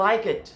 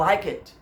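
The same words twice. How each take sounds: Both takes have the same delivery.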